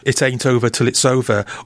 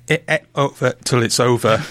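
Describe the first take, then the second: First: The title is pronounced in a plain speaking way. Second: The title copies a singer's stylized pronunciation.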